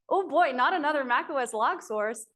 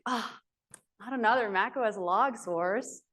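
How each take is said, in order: First: It is said in a happy tone. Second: It is said in a sad tone.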